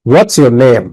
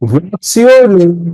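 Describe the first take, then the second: First: The voice falls at the end. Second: The voice rises at the end. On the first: The speaker calls it right. "তো তুমি কি বলবে" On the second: The speaker calls it wrong. "তাহলে উপরে উঠে গেল, তাহলে হবে না।"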